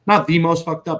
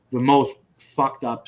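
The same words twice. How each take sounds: First: "the" punched high and loud; stress on THE. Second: Said in the usual way. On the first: Real, not acted. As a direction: hit "the" hard as a correction. Corrects his own superlative.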